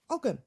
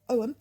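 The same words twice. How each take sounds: First: It is said as English spelling suggests. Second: It is said with the Gaelic pronunciation. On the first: "in our sort of English, uh, we would then phonetically pronounce it Ogham" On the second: "the pronunciation in Gaelic is Ogham"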